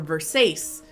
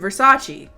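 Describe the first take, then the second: First: The name is pronounced in an altered way. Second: The name is pronounced the standard way.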